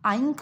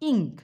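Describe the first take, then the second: First: The vowel sounds like 'eye'. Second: The vowel sounds like short 'i'. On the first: The speaker calls it wrong. "তখন কি আই আইঙ্ক বলছি না" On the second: The speaker calls it right.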